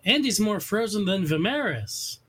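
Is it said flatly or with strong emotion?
flatly. It is said in a plain, flat way.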